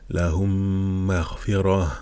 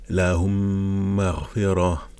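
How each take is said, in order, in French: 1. Les deux m se fondent et sont tenus avec nasalisation. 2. Les deux m se fondent et sont tenus avec nasalisation.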